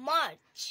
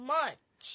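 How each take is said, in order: Both takes have the same delivery.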